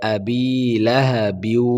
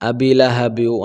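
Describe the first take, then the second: First: The vowel of 'bi' is drawn out long. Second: The vowel of 'bi' is kept short. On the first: The speaker calls it right. "এভাবে পড়ব" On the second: The speaker calls it wrong. "অনেকে অনেক জায়গায় বিতে টান দেয় না"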